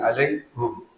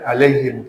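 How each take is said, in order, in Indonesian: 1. Suku kata terakhir berakhir dengan bunyi u. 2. Suku kata terakhir berakhir dengan bunyi i. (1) "tapi alaihum" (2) "tidak alaihim"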